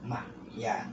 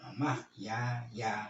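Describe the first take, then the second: First: The final y sound is held without a vowel. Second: The final y sound is followed by a vowel. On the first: This is the reading of the people of Madinah. "ini bacaannya orang Madinah ya" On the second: The alif shows the letter carries a vowel. "Jadi dibaca nah ini mahyaya"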